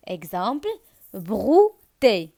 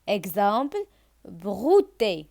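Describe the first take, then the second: No difference in how they are said.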